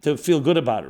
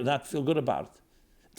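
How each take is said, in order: First: "to feel good" said louder as the fix; louder corrected take. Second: Said in the usual way. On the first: Shown as a demonstration.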